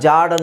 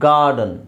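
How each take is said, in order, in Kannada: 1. ಈ ಪದ ಸಾಫ್ಟ್ ಜ ಶಬ್ದದಿಂದ ಶುರುವಾಗುತ್ತದೆ. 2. ಈ ಪದ ಹಾರ್ಡ್ ಗ ಶಬ್ದದಿಂದ ಶುರುವಾಗುತ್ತದೆ. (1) "ನಾವು ಜಾರ್ಡನ್ ಅಂತ ಹೇಳ್ತೀವ, ಇಲ್ಲ" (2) "ಗಾರ್ ಅಂತ ಹೇಳಬೇಕು"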